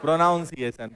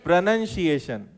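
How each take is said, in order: First: प्रोनाउंसिएशन with "noun" in the middle, the common mistake; wrong pron. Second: प्रोनंसिएशन with "nun" in the middle, not "noun"; correct pron. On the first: Teacher mimicking the students' usual error: प्रोनाउंसिएशन said pro-noun. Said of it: "प्रोनाउंस गलत कर रहा है". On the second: Teacher showing the class the right word: प्रोनंसिएशन, pro-nun-see-ay-shun. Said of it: "उच्चारण को English में क्या बोलते हैं". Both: Shown as a demonstration.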